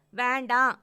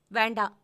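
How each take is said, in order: First: Higher, much louder "வேண்டாம்"; upset girlfriend shouting no; loud angry no. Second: Loud clipped no; a loud curt "வேண்டாம்"; sharp refusal. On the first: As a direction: shout the refusal. Angrier repeated refusal. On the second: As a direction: refuse loudly. Angry refusal on phone. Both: Acted.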